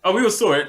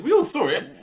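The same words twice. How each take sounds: First: Said in the usual way. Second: Much higher, pressing the point; insistent repeat of the claim; emphatic. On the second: Real, not acted.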